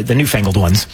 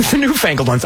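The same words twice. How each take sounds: First: Said in the usual way. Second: "newfangled ones" said through a laugh, pitched higher; amused repeat of "newfangled". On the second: Shown as a demonstration. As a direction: chuckle as you repeat "newfangled". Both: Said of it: "I said newfangled".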